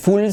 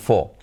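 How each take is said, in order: First: The final L is clearly pronounced. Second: The final L becomes vowel-like. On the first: The speaker calls it wrong. "No se dice full" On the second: The speaker calls it right. "sino fo"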